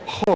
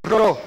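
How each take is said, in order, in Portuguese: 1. O R é aspirado, parecido com um H. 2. O R é vibrado. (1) "o som que a gente às vezes usa como R... esse som aspirado" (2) "O som de R sempre é vibrado"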